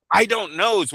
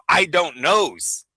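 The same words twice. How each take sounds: First: "I don't knows" pitched higher and quicker, smirking; quicker mock crooked-smile answer. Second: Slow, drawn-out mock "I don't knows"; mocking crooked-smile answer. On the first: Mocking an evasive official's answer, higher and quicker. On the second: Mocking an evasive official's answer, slow smirking drawl. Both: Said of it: "with a lot of crooked smiles".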